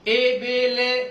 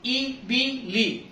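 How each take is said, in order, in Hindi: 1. स्वर एक मध्य 'e' ध्वनि हैं। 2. स्वर एक संवृत 'ee' ध्वनि हैं। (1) "नहीं" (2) "जेर की आवाज"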